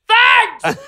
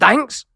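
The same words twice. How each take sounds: First: It is said as an emphatic exclamation. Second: It rises at the end like a question.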